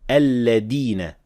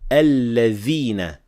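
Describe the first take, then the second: First: The middle consonant is a d sound. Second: The middle consonant is a th sound. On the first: The speaker calls it wrong. "others mispronounce it as dal" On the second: The speaker calls it right. "We should only say alladhina with dhal"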